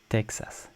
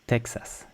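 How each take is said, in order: Both takes have the same delivery.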